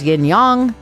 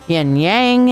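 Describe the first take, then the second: First: It uses the original, foreign-style pronunciation. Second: It uses the local, anglicized pronunciation. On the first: The speaker calls it right. "the way they say it there" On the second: The speaker calls it wrong. "the way that we say it here"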